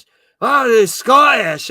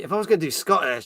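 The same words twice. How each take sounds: First: Loud, high put-on Scottish accent. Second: Said in the usual way. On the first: Shown as a demonstration.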